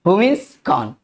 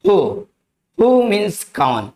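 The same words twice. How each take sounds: First: Said in the usual way. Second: Slow, deliberate word-by-word model; slow teaching demo. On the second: Shown as a demonstration. Hindi English teacher modelling who for students, slow and deliberate. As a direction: lay each word out slowly for learners.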